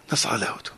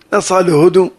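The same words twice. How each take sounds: First: נסעה להודו said low and soft, falling away; low dropped. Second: נסעה punched loud with a rise, then להודו; stress on נסעה. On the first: Telling of the daughter leaving, low and soft. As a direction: let נסעה להודו sink, low and quiet. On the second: Repeating that the daughter left, נסעה punched loud. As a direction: hit נסעה hard and lift it. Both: Shown as a demonstration.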